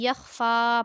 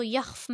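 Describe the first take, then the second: First: यख्फ़ा with "faa" held out at the stop; long ending kept. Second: यख्फ़ stopped dead on "f", no vowel; clipped wrong ending. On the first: Teacher showing the correct pause form, यख्फ़ा with long "faa". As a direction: keep the final vowel of यख्फ़ा long. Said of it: "वक्फ़ की सूरत में भी यख्फ़ा पढ़ेंगे". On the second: Teacher showing the mistake to avoid, यख्फ़ without final vowel. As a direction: chop यख्फ़ off at the consonant. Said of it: "इसको यख्फ़ नहीं पढ़ेंगे". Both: Shown as a demonstration.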